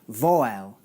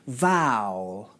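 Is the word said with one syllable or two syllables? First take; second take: two syllables; one syllable. First: The word is said as two syllables. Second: The word is said as one syllable. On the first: The speaker calls it wrong. "it has two syllables" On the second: The speaker calls it right. "this word has one syllable, not two"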